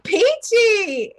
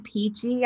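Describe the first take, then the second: First: High, loud sing-out of "Peachy"; perky peachy. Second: Said in the usual way. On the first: Retold or imitated. Coach imitating the teller's answer to how are you, perky. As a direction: chirp it with exaggerated cheer. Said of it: "or something like". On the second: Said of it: "I think it was".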